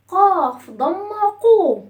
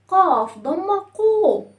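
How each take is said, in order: Both takes have the same delivery.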